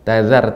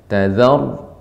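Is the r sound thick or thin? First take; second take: thin; thick. First: The r is pronounced thin and light. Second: The r is pronounced thick and heavy. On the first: The speaker calls it wrong. "Tazar tipis" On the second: The speaker calls it right. "maka dibaca dengan tebal"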